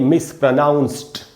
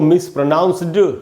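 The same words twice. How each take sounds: First: The word ends with a t sound. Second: The word ends with a d sound. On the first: The speaker calls it right. "यहाँ डी से ड नहीं बनेगा, ट बनेगा, इसलिए इसको हम पढ़ेंगे मिसप्रोनाउंस्ड" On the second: The speaker calls it wrong. "इसको मिसप्रोनाउंस्ड नहीं पढ़ना है, ड नहीं बोलना है"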